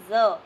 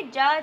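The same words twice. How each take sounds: First: ज said as a buzzing z, like a bee; Urdu z sound. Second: ज said as a plain hard j, like jam; teacher shows the Hindi ज as plain j before the Urdu z. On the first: Teacher showing children the Urdu letter, buzzing z. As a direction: give ज a buzzing z, tongue near the upper teeth. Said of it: "हम इसे पढ़ते हैं ज". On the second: Teacher contrasting letters for children, plain j sound. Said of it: "इसे ज नहीं पढ़ते". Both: Shown as a demonstration.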